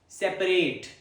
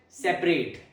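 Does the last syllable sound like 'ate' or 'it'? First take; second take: ate; ate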